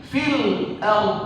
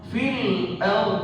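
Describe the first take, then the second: Both takes have the same delivery.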